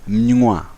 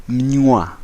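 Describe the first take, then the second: No difference in how they are said.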